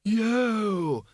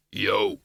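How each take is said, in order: First: Put-on high, drawn-out old wizard voice; thin-volume, high whoop; Windlepoons. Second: Low bogeyman voice; short, deep monster call; Schleppel. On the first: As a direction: sing out a long, high call. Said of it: "said Windlepoons". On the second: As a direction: join in as a big, deep creature. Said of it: "said Schleppel". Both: A narrator's reading.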